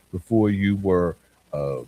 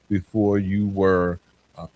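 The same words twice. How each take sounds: The two takes are said the same way.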